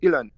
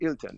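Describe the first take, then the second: First: The T in the middle is dropped. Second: The T in the middle is pronounced.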